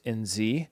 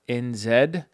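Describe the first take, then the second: First: The last letter is said as zee. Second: The last letter is said as zed.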